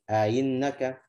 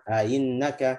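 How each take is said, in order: Both takes have the same delivery.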